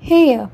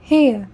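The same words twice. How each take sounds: The two takes are said the same way.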